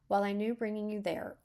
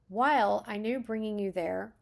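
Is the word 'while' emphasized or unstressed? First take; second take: unstressed; emphasized. First: The word 'while' carries no special stress. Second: The word 'while' is strongly stressed. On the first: "if it had no italics, italics on it, I would have read it like this" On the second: "you have emphasis on while, so I, I, when I started reading it that way"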